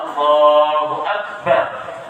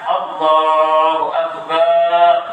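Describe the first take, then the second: First: The final syllable bar is short. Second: The final syllable bar is drawn out. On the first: The speaker calls it right. "Bar pendek seperti itu" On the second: The speaker calls it wrong. "Kalau seandainya ba-nya panjang"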